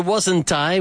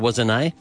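First: The t in wasn't is clearly pronounced. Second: The t in wasn't is dropped. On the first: "we're reinforcing the negative, the T" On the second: "You might hear wasn't I"

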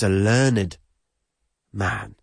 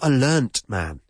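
First: Learned is said as two syllables, ending in -ed. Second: Learned is said as one syllable, ending in t. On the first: The speaker calls it right. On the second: The speaker calls it wrong.

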